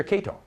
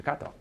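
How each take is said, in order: First: "Kato" misread as KAY-toh; anglicized mispronunciation. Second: "Kato" with an open ah, KAH-toh; correct Japanese pronunciation. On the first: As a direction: say "Kato" with the English letter-A sound, KAY-toh. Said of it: "yet he says Kato". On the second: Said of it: "I just finished saying Kato". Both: Retold or imitated.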